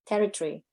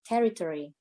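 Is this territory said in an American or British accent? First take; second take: British; American. First: The middle syllables are squeezed together, British-style. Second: Every syllable is said fully, American-style. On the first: "in British English, they say territory, tree, territory" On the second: "In American English, they say territory. Masih ada terinya"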